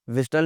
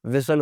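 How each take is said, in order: First: "विस्टल" with a T after S; T sounded. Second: "विसल" with S straight into L; silent T. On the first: Teacher showing the mistake, T sounded. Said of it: "विस्टल नहीं होता". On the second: Teacher correcting learners, T left silent. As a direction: drop the T, "विसल". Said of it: "विसल होता है". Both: Shown as a demonstration.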